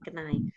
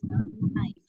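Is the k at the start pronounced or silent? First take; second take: pronounced; silent. First: The initial k is pronounced. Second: The initial k is silent. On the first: The speaker calls it wrong. "bukan knife ya" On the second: The speaker calls it right. "kayaknya nggak perlu dibaca, langsung aja knife ya"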